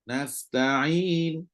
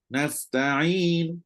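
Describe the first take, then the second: The two takes are said the same way.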